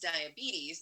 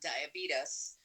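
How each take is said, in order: First: The word ends with a 'teez' sound. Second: The word ends with a 'tus' sound. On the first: The speaker calls it right. "it's diabetes" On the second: The speaker calls it wrong. "not diabetes, like beat us"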